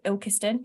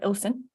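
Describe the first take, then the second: First: All syllables of the name are pronounced. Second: The name is squeezed into two short syllables. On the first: "a town called Ilkeston" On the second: "You call it Ilson"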